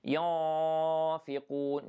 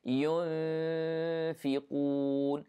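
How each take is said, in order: First: ينفقون with the nasal ikhfa missed; wrong pronunciation. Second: ينفقون slowly, hiding the noon lightly before fa; correct ikhfa. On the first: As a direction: say ينفقون the wrong way, without hiding the noon. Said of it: "So don't say ينفقون". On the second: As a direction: say ينفقون with a light hidden noon and heavy qaf. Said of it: "No, it is ينفقون". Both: Shown as a demonstration.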